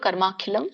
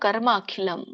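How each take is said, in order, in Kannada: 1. ಈ ಎರಡು ಪದಗಳು ಒಂದೇ ಪದವಾಗಿ ಸೇರಿವೆ. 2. ಈ ಎರಡು ಪದಗಳು ಬೇರೆ ಬೇರೆ ಪದಗಳಾಗಿಯೇ ಉಳಿದಿವೆ. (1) "ಕೂಡಿ ಹೇಳೋರು" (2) "ಬಿಡಿಸಿ ಹೇಳೋರು"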